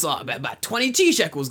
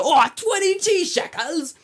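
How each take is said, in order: First: Raised comic seller voice; name the price in a put-on voice; hammed-up offhand quote, slightly high; casual mock seller. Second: Very high, drawn-out shock; hammed-up high, slow gasp of surprise; mock astonishment. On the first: Acts out seller naming price. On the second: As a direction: squeal the price slowly in disbelief. Acts out astonished reaction to price.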